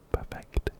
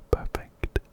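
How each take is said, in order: Both takes have the same delivery.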